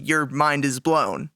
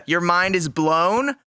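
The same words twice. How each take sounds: First: Lower, flat letdown; deadpan, unimpressed. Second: Slow, laughing amazement; amazed, mind blown. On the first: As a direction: say it like a disappointment. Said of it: "But not, not in a good way". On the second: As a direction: sell it as truly mind-blowing. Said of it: "But if you do it really poorly, your mind is blown". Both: Acted.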